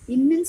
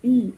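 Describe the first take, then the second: First: An extra vowel is added after the final n. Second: The word ends cleanly on the n sound. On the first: The speaker calls it wrong. "இன்னுன்னு சொல்லக்கூடாது" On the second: The speaker calls it right. "இன் அப்படின்னு சொல்லணும்"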